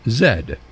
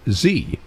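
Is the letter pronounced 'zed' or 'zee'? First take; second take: zed; zee. First: The letter is said the Canadian way, 'zed'. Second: The letter is said the American way, 'zee'.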